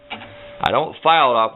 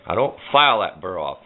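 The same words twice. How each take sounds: First: "file" slowed and lifted; stress on file. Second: Said in the usual way. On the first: Shown as a demonstration. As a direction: lean on "file", slowly.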